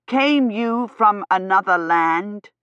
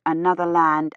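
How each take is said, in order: First: Slow, emphatic raised voice, rising at the end; nearly shouting. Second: Said in the usual way. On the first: A narrator's reading. Gawyn questioning the foreign lady, slow and nearly shouting. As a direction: spell it out almost at a shout, word by word. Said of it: "nearly shouting". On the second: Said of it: "Kivrin thought".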